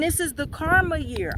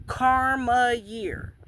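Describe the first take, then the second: First: Said in the usual way. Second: KARMA YEAR drawn out very slowly, word by word; emphatic repeat. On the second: Real, not acted. Saying it again to viewers, "Karma year" slow and emphatic. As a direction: stretch out "Karma year" for weight. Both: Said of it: "I'ma say it again".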